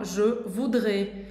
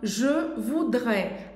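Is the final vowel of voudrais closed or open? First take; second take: closed; open. First: The final vowel is a closed E sound. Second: The final vowel is an open E sound. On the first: This is how some regions say it. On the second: This is the usual pronunciation.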